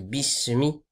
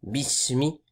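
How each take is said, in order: First: The s sound is clear with audible airflow. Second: The same.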